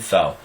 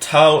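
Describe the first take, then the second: First: It starts with a soft TH sound. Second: It starts with a T sound. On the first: "an undotted tav is a th sound" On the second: "tau or tav is a T sound"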